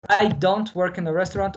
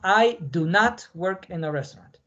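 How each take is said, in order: First: Do not is contracted into one syllable. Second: Do not is said as two full words. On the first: "lo más común es que ... lo pronuncien así" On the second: "no lo pronuncien de esa forma"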